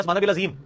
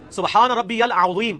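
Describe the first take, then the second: First: सुभान रब्बियल अज़ीम with अज़ीम said with a plain z; common wrong reading. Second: सुभान रब्बियल अज़ीम, slow, with a throat ain and a heavy ẓ in अज़ीम; correct Arabic reading. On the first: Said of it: "वो ये पढ़ रहा होता है". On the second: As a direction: recite अज़ीम slowly with the Arabic ẓ. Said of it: "तो ये पढ़ते हो अजीम". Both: Shown as a demonstration.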